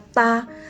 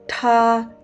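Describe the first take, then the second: First: The t has no strong puff of air. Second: The t has a strong puff of air. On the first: The speaker calls it wrong. "kita tidak boleh baca ta" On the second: The speaker calls it right. "Ada hembusan nafas yang kuat"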